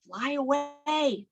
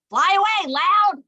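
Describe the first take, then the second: First: Said in the usual way. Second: Louder and higher, calling out. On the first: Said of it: "one named Soft". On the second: Shown as a demonstration. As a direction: call it out big and bold. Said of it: "the other named Loud".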